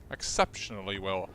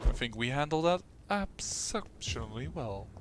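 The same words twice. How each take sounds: First: "Exceptionally well" carefully enunciated, lower; "Exceptionally" said crisply, every syllable; more proper pronunciation. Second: Said in the usual way. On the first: Shown as a demonstration. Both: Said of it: "Should pronounce a little bit more proper".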